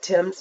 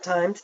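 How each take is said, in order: First: The vowel is short, like in 'tim'. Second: The vowel is long, like in 'time'. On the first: The speaker calls it right. "I think you actually pronounce that Tim's" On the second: The speaker calls it wrong. "not Times"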